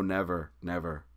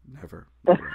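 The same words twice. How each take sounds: First: Said in the usual way. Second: Louder, rising sing-song "never, never"; emphatic refusal. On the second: Retold or imitated. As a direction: push the refusal up and out. Refusing the band's offer.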